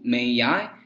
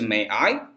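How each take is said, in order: First: The two words run together with a linking sound. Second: The two words are said separately without linking. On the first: This is the American way of saying it. "注意一下第二句的连读 ... 这种只适合美式发音啊" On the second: This is the British way of saying it. "如果你是英式，直接是May I？"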